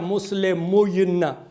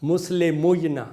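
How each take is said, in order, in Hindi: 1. y से पहले छोटा u स्वर आता है। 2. y से पहले छोटा u स्वर आता है।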